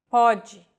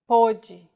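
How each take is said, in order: First: "Pode" said with an open O, PAW-jee; "Pode", open first vowel. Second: "pôde" said with a closed O, POH-jee; "pôde", closed first vowel. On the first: Teacher contrasting homographs: open O in "Pode". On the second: Teacher contrasting homographs: closed O in "pôde". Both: Shown as a demonstration. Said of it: "different meanings".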